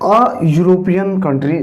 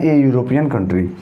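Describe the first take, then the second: First: The article is a short 'uh' sound. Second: The article is a long 'ay' sound.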